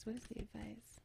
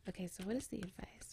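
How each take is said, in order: First: Very soft hushed voice; whispering. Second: Soft, quick hushed voice; whispering. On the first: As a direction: barely breathe the question. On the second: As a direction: keep it down so she can rest. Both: Real, not acted. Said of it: "have to whisper a little bit".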